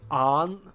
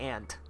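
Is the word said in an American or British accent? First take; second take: British; American. First: It is said with a British vowel, like auntie. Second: It is said with an American vowel, like ant. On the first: "just your typical kind of base British. It's more aunt" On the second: "you guys in America, you would say aunt"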